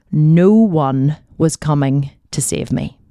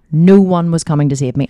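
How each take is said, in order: First: Said in the usual way. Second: "no one" pressed hard, louder; emphatic repeat. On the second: Shown as a demonstration. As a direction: land every word of "no one was coming to save me" with weight. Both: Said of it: "And I mean".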